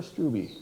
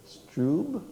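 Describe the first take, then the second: First: Struby as STROO-bee, two syllables; Struby ending in a clear bee sound; two-syllable pronunciation. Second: Strube as one syllable, rhyming with tube; one-syllable pronunciation. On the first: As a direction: say Struby with a final ee. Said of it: "Strube or Struby?". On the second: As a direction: say Strube with no ee at the end. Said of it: "they say it one way". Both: Shown as a demonstration.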